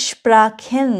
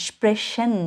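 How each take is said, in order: First: স্প্রাখেন with a "kh" for CH. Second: স্প্রেশন with a "sh" for CH. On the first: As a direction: stretch out স্প্রাখেন, CH sounded like খ. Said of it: "সেজন্য এটা আমি খ উচ্চারণ করেছি". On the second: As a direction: stretch out স্প্রেশন, CH sounded like শ. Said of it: "স উচ্চারণ করবেন". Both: Shown as a demonstration.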